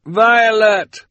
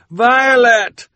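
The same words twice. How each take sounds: First: Shouting across water. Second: High, loud shout over rushing water; shouting over the roar. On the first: Calling out across rushing water. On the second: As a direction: yell to be heard over a torrent. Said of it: "shouted over the roar of the water". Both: A narrator's reading.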